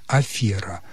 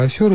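First: Афера with E, lower and softer; stressed E. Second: Афера as "афёра", pitched higher; stressed YO. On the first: Expert repeating the correct form, stressed E. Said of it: "правильно и было". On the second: Expert citing the mistaken belief, with YO. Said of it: "это просто заблуждение". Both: Shown as a demonstration.

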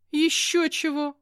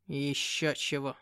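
First: High, loud indignant outburst. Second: Low, slow scornful cat; sneering demon cat. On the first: A narrator's reading. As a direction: fire it back, outraged. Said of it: "возмутилась". (возмущённо, громко) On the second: Acted. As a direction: scoff like a proud demon. (презрительный кот-бес)

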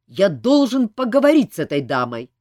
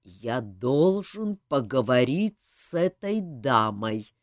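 First: Louder insistent demand. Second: Low, slow threatening words; slow and menacing. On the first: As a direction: insist loudly. Elmar's first loud demand. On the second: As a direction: menace each word slowly. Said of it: "медленно и угрожающе произнёс он". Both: A narrator's reading.

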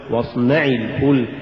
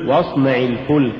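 First: واصنع الفلك with too much stress on the nun; واصنع, accent shifted onto نَ; overstressed nun. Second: Said in the usual way. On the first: Shown as a demonstration. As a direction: punch the نَ in واصنع. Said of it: "ولا تقل". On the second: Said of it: "قل".

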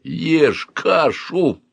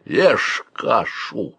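First: Slow, raised-pitch furious order; furious growl. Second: Very slow hoarse order. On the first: Uncle at gunpoint forces breakfast, furious growl. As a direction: growl it out word by word. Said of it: "яростно прорычал он". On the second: Uncle aims a gun at the boy, hoarse. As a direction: drag out a hoarse command. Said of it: "хрипло сказал он". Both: A narrator's reading.

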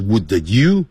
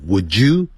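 First: "would you" broken into "would-duh you"; unlinked pronunciation. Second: "would you" merged into "wou-joo"; linked sounds. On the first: Teacher showing what not to say, unlinked. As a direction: sound the d apart from "you" in "would you". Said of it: "而不是". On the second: Teacher showing the sound change, linked. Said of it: "变音了". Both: Shown as a demonstration.

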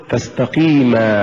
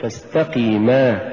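First: فاستقيما with the push on قي; correct recitation. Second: فاستقيما with the final ما pushed; slow فاستقيما, weight on ما; misplaced push on the ending of فاستقيما; wrong stress. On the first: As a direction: stress the long قي in فاستقيما. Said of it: "قل". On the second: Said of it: "ولا تقل". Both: Shown as a demonstration.

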